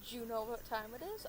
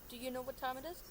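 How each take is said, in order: First: "Do you" is blended into one quick "jew" sound. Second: "Do you" is said as two clear words. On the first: "I don't say" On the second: "I enunciate do you"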